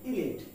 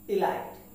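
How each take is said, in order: First: The second syllable sounds like 'lit'. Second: The second syllable sounds like 'light'. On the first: The speaker calls it right. "ইলাইটে আসলে লাইট নেই, কি আছে? লিট আছে।" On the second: The speaker calls it wrong. "আমরা এটাকে ইলাইট বলি।"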